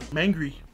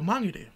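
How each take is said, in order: First: It is pronounced in an anglicized English way. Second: It is pronounced in the Maori way. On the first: The speaker calls it wrong. "I've grown up saying" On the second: The speaker calls it right. "instead of"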